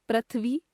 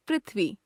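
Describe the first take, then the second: First: पृथ्वी as "prathvi", rising; wrong pronunciation. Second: Said in the usual way. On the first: Shown as a demonstration. Teacher showing a common error, पृथ्वी as "prathvi". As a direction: replace the ri of पृथ्वी with ra. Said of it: "अशुद्ध". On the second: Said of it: "शुद्ध".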